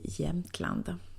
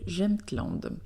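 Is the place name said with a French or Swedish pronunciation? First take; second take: Swedish; French. First: The name is said with a Swedish pronunciation. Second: The name is said with a French accent. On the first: "sinon ça se dit Jämtland" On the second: "avec l'accent français"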